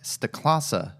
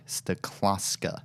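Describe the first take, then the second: First: The name ends without an extra k sound. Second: The name has an extra k before the end. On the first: The speaker calls it right. "I'm sorry, Mike Staklasa" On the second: The speaker calls it wrong. "mispronouncing your name and calling you Mike Staklaska"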